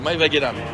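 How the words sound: The name is said with a French pronunciation. "En français, ça se dit"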